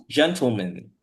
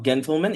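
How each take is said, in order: First: "gentleman" said as a pronunciation model; correct gentleman. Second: The wrong way of saying "gentleman", held up for correction; mispronounced gentleman. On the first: Teacher correcting the student's word, correctly pronounced "gentleman". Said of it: "it's gentleman". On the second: Teacher showing the class how not to say it, mispronounced "gentleman". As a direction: show "gentleman" as the student's error. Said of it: "it's not gentleman". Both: Shown as a demonstration.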